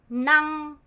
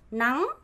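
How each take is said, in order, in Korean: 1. 성조가 처음부터 끝까지 평평해요. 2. 성조가 위로 올라가요. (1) "일성이 돼야 돼요" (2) "성조 올리면 돼요"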